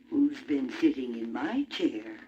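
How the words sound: It is said in a middle-sized voice.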